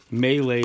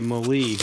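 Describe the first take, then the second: First: The word is said with its real pronunciation. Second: The word is said with the speaker's old pronunciation. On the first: The speaker calls it right. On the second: The speaker calls it wrong.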